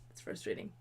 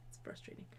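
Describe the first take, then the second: First: Soft sighing whisper; weary whisper. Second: Even softer, trailing whisper; fainter whisper. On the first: Venting to viewers about Val, weary whisper. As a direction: breathe it out, defeated. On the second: Repeating the complaint to viewers, fainter whisper. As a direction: let it fade to nothing. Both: Real, not acted.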